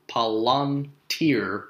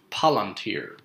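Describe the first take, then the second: First: Palantir as pa-LAN-tir, slowly split; stress on second-to-last syllable. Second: Palantir as PAL-an-tir; stress on first syllable. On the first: Teacher showing correct Palantir, slow middle stress. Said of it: "between the second to last and the last syllable". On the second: Teacher showing the wrong Palantir, first syllable stressed. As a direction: hit the opening PAL of Palantir. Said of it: "as opposed to Palantir". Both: Shown as a demonstration.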